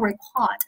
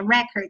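First: The stress is on the second syllable. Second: The stress is on the first syllable. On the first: It is the verb meaning to record. "而我读成record" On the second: It is the noun meaning a record. "当我读到第一音节record，它表示是名词的记录"

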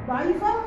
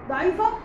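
No difference in how they are said.

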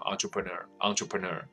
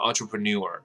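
First: It is said with a French-style pronunciation. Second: It is said with an American English pronunciation. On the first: "会法文的学生说这个就念成entrepreneur" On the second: "很多美国人就念成entrepreneur"

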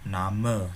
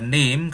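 First: It is pronounced the German way, two syllables. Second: It is pronounced like the English word name. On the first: The speaker calls it right. "tapi dibaca Name seperti itu" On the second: The speaker calls it wrong. "nggak dibaca name kayak bahasa Inggris ya"

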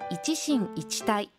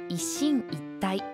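First: The first part is said fully as 'ichi-shin'. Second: The first part is shortened to a doubled 'isshin'. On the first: The speaker calls it wrong. "一進一退ではなく" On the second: The speaker calls it right. "一進一退のように、一は即音になる"

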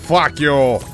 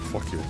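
First: The phrase is said with strong, forceful emphasis. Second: The phrase is said flatly, without strong emphasis. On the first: The speaker calls it right. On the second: The speaker calls it wrong.

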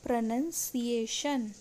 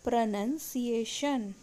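The two takes are said the same way.

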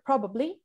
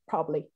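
First: All three syllables are pronounced fully. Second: A syllable is dropped, sounding like two syllables.

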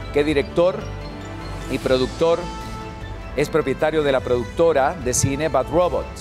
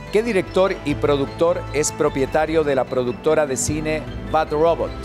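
Both takes have the same delivery.

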